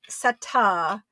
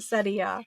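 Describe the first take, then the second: First: The word ends with a plain "tuh" sound. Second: The word ends with a "tee-uh" sound. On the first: "just the A at the end" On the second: "the T I A you're pronouncing it"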